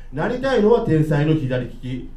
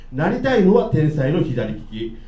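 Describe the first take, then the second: The two takes are said the same way.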